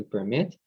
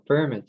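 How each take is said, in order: First: PerMIT, stressed ending; verb-style "permit"; "permit" leaning on MIT; stress on second syllable. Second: PERmit, stressed start; noun-style "permit"; "permit" leaning on PER; stress on first syllable. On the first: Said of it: "the stress is on the second syllable". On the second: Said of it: "the stress is on the first syllable". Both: Shown as a demonstration.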